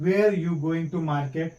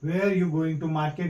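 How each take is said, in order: First: The first word sounds like 'wear'. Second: The same.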